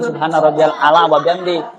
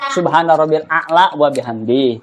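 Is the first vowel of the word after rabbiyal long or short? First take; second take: short; long. First: The first vowel of ala is short. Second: The first vowel of a'la is long. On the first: The speaker calls it wrong. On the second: The speaker calls it right. "ini baru pakai alif a'la gitu"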